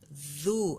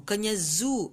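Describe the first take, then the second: First: The first consonant is dh, tongue between teeth. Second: The first consonant is a plain z sound. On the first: The speaker calls it right. "mesti keluar lidah" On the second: The speaker calls it wrong.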